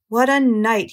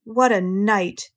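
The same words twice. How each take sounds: First: Louder, lightly hoarse exclamation; emphatic, mildly hoarse rat voice. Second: Slow, drawn-out husky exclamation; savouring it at length, lightly husky. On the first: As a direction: push it out loud with a touch of hoarseness. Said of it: "he repeated hoarsely". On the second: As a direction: stretch it out slowly, with a touch of huskiness. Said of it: "he said in a husky voice". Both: A narrator's reading.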